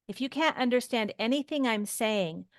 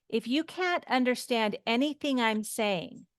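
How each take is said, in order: The two takes are said the same way.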